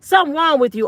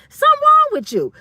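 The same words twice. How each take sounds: First: Said in the usual way. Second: High, loud mock disbelief; high incredulous squeal. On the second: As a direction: shoot way up high on "wrong" and fall off. Mocking disbelief at a hater.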